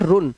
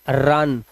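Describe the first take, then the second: First: The vowel sounds like 'oo' in put. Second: The vowel sounds like 'uh' in cup. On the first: The speaker calls it wrong. "dis is nॉट रुन" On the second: The speaker calls it right. "This is रन"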